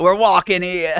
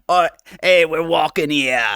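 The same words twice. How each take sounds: First: A hint of a brash New York accent, punching were; quoting the New York street guy, lightly accented; New Yorker accent. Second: A hint of a brash New York accent; lightly voiced New Yorker tough guy. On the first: Retelling the classic New York street line, mild New York accent. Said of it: "a guy walking in New York and says". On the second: VTuber trying out a New Yorker accent on stream, lightly done. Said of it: "a New Yorker type accent".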